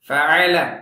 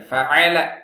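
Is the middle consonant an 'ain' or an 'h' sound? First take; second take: ain; ain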